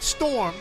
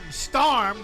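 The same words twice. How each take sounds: First: The vowel sounds like 'or', as in 'storm'. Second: The vowel sounds like 'ar', as in 'starm'. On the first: This is the standard way of saying it. "not storm" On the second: This is how older people say it. "that's what the old people say, S T A R M"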